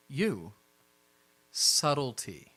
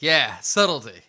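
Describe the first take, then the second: First: Very slow, spaced-out "Subtlety"; deliberate, measured rebuke; pointed admonition. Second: Loud, emphatic agreement; punchy, raised-voice echo; boisterous echo. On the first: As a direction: draw the word out as a warning. Jackson pointedly tells one character: subtlety. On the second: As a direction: chime in heartily on "subtlety". Sebastian chimes in, echoing the rebuke. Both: Acted.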